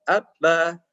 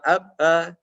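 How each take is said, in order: Both takes have the same delivery.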